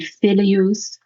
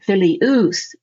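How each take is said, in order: First: The ending of the word is not stressed. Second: The ending of the word is stressed. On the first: The word is read within a verse. "You're not going to emphasize that ending the same way" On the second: The speaker is practicing the case endings. "our tendency is to emphasize the ending"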